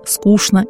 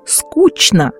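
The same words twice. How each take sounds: First: One sound is changed from how it is written. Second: Every sound is said as it is written. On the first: The speaker is from Moscow. "вместо московского" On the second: The speaker is a native of Saint Petersburg. "от коренных питерцев"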